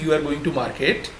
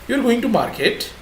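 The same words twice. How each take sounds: First: It is said with a plain statement tune. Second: It is said with a questioning tune. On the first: It states a fact. "this is not a question because there is no face gesture and tone for that" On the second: It asks whether this is so. "we are making it a question by our face gesture and our tone"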